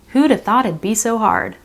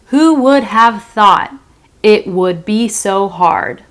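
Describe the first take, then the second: First: The words are contracted and run together. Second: Each word is said in its full form. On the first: "fast speech, connected speech" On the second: "This is"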